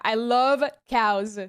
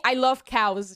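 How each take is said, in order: First: "I love cows" stretched out slow, each word leaned on; slow emphasis. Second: Said in the usual way. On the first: Shown as a demonstration. Telling chat, slowly stressing she loves cows.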